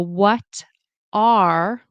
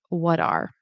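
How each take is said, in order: First: Both words are said fully and separately. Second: The words are linked and reduced together. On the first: "the what are" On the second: "will turn into something like"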